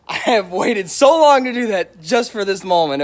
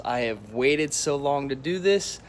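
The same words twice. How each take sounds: First: Louder, hyped-up retake; pumped, a bit louder and higher; excited. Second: Said in the usual way. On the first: Real, not acted. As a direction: push it with live-stream excitement. Repeats line, building hype.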